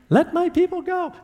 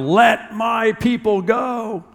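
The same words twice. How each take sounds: First: It is said in a high-pitched voice. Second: It is said in a normal voice.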